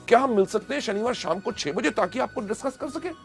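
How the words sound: It is said with excitement and energy.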